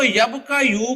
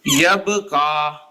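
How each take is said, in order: First: "यब का यू" with the final "यू" sounded; ursprüngliche Form. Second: "यब का" drawn out slowly, ending on long aa; changed Arabic reading. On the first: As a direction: say "यब का यू" in full, ending on a yu syllable. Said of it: "वो इसको यब का यू को ना इस तरह पढ़ेगा". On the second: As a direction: say "यब का" slow and low, dropping the final yu. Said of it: "इस तरह पढ़ेगा". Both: Shown as a demonstration.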